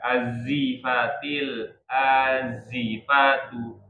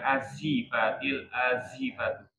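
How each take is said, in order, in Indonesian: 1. Konsonan itu adalah bunyi z yang berdengung. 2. Konsonan itu memiliki bunyi s yang mendesis. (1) "Tetap ke Z. Jangan ke S" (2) "bukan azifatil azifatu, masih ada S ya"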